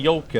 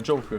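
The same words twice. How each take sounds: First: The word starts without a 'j' sound. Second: The word starts with a 'j' sound.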